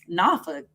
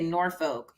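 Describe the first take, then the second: First: The name is said with the local pronunciation. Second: The name is said with an outsider's pronunciation. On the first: This is how people from there say it. The speaker calls it right. "That's how you say it" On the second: This is how a newcomer says it. The speaker calls it wrong. "When I first got there, I used to say Norfolk"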